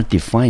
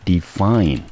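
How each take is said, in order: First: Said in the usual way. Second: Define said slowly, stress on FINE; slow model pronunciation. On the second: Shown as a demonstration. (慢速示范念define) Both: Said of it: "我们念成define".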